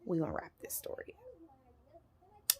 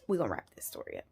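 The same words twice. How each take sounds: First: Slow, hushed whisper; whispered aside. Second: Soft, much lower voice; low murmured aside. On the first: Storyteller to viewers about wrapping up, whispered. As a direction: whisper it under your breath, drawn out. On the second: Storyteller to viewers about wrapping up, low murmur. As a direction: drop it down low and quiet. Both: Real, not acted.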